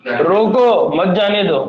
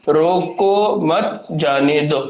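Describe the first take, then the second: First: "रोको", a break, then "मत जाने दो" run together; slow "रोको" set apart, "मत" joined to "जाने दो"; pause after रोको. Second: "रोको मत जाने दो" very slow, a gap after each word; word-by-word pauses. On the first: Teacher giving the second comma reading, pause after "रोको". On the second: Teacher showing students how a comma changes the sentence, slow separated words. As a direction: spell out "रोको मत जाने दो" slowly, setting "मत" apart from "जाने दो". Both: Shown as a demonstration. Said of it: "comma कहाँ add करें".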